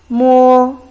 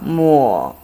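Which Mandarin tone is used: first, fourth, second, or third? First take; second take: first; third. First: It is said with the first tone. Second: It is said with the third tone. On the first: It means touch. "So it's the first tongue" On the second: It means wipe. "Third tongue"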